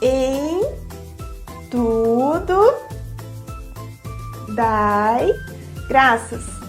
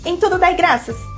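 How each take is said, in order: First: The phrase is spoken very slowly. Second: The phrase is spoken very quickly. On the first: "falando bem devagar" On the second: "E depois bem rápido"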